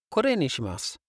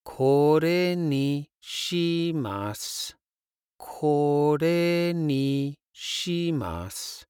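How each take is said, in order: First: Said in the usual way. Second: Slow. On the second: Shown as a demonstration. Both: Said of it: "pointing towards something on the menu".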